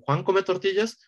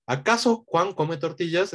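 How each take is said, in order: First: Plain question lifted only by a rising end on "tortillas?"; natural rising question. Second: Slow, deliberate question leaning on "acaso"; stilted literal question. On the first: Teacher shows the natural Spanish question, just a rising tune. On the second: Teacher shows the stiff literal translation, slow and stressed. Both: Shown as a demonstration. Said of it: "es más natural para un hispanoparlante como".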